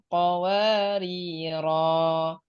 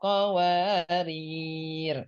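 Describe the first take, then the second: First: The final ro has a long vowel. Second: The final r has no vowel after it. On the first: The reader stops at the end of the verse. "Jika wakaf di akhir ayat lima belas, rohnya dibaca panjang" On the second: The reader stops on this word. "Jika wakaf di qawariro yang kedua, rohnya dibaca sukun"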